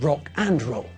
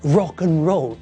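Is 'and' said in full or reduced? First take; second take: full; reduced. First: The word 'and' is said fully and clearly. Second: The word 'and' is reduced to a short 'n'.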